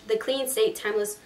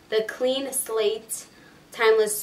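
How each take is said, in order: First: Said in the usual way. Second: "Clean Slate" slowed right down; slow, careful restatement. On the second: Real, not acted. Vlogger correcting the primer's name for viewers, slow and careful. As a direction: say "Clean Slate" slowly, word by word.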